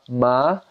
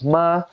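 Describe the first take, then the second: First: The pitch rises from low to high. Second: The pitch stays high and level. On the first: "the second tone goes up" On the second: "the first tone is high pitched flat"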